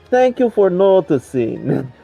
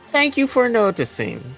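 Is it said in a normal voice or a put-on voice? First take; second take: put-on; normal. First: It is said mimicking another man's voice. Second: It is said in his normal voice.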